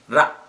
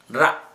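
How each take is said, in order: First: The R sound is said the Indian way. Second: The R sound is said the Indian way.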